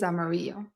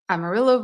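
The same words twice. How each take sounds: First: The name is said with Spanish pronunciation. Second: The name is said with English pronunciation. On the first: This is how the word is said in Spanish. The speaker calls it wrong. "not the Spanish pronunciation" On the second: This is how the locals say it. The speaker calls it right. "Amarillo is the English pronunciation"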